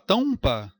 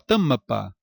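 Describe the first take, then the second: First: The vowel glides into a U-like semivowel. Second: The M is a full consonant with an extra vowel. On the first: "semivogal M, nesse caso dando som de, de val, U" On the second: "Não fala isso"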